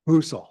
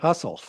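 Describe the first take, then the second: First: The name does not sound like hustle. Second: The name sounds like the word hustle. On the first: The speaker calls it right. "That's how you say it" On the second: The speaker calls it wrong. "I always call it Hustle"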